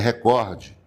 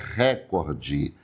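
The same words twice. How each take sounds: First: The stress is on the second syllable. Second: The stress is on the first syllable. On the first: The speaker calls it right. "é recorde. E como nós não podemos acentuar paroxítonas terminadas em E" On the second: The speaker calls it wrong. "A palavra não é recorde"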